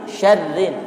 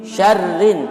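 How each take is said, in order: Both takes have the same delivery.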